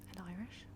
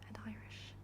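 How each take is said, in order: Both takes have the same delivery.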